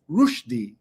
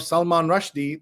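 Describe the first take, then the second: First: RUSHDIE as ROOSH-dee, slowly; corrected pronunciation. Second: RUSHDIE with the vowel of rush; common pronunciation. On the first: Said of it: "saying another name wrong". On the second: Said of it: "the way we all say it". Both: Shown as a demonstration.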